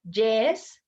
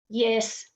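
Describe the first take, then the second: First: The word begins with a J sound. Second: The word begins with a Y sound. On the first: The speaker calls it wrong. "these ones are incorrect" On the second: The speaker calls it right. "We want to say"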